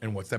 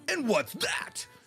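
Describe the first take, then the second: First: The question is asked in a calm tone. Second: The question is asked in an angry tone. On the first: The speaker calls it right. "That's what he's supposed to sound like" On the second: The speaker calls it wrong. "He was angry"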